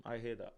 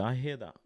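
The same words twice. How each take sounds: First: "I hear that" repeated much softer; soft echo. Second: Said in the usual way. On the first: Real, not acted. Agreeing with the captain, echoing it softly. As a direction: let the echo fall away quietly.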